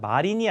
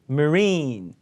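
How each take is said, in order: First: It is said with Korean-style syllables. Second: It is said with English pronunciation. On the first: The speaker calls it wrong. "마린이 아니라" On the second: The speaker calls it right.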